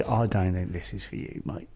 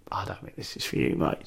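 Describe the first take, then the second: First: Low, quiet imitation of the promoter; a lightly voiced promoter letting him down; retold promoter. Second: Whispered, low imitation of the promoter; retold promoter, whispered. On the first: Promoter telling the young comic it's not for him, low and quiet. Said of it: "he said". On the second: Promoter repeats the brush-off, now whispered and low. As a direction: breathe it out low like a blunt aside. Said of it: "he went".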